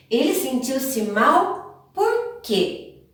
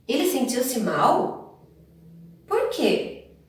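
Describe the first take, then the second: First: "Ele sentiu-se mal por quê" as one slow question; sentence-final "por quê". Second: "Ele sentiu-se mal" as a slow question, then "Por quê" alone, high and falling; standalone "por quê". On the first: Teacher giving pupils an example, one slow question ending on "por quê". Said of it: "os dois estão no final". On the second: Teacher giving pupils an example, "Por quê" standing alone after a pause. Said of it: "ou sozinho. Olha os dois exemplos". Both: Shown as a demonstration.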